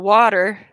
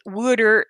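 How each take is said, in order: First: Said in the usual way. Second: "wooder", first vowel as in "wood"; regional "water". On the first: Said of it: "instead of". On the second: Shown as a demonstration. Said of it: "You got the people that say".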